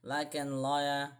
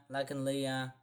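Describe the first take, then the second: First: Laganlia said slowly as lag-an-LYE-a; unsure pronunciation. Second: Laganlia said as lag-an-LEE-a; second pronunciation attempt. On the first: Guessing at a Scottish name, hesitant Laganlia as lag-an-lye-a. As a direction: try "Laganlia" with an "eye" vowel before the final a. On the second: Guessing at a Scottish name, hesitant Laganlia as lag-an-lee-a. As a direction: try "Laganlia" with an "ee" vowel before the final a. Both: Real, not acted. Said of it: "I don't know what I'm saying here".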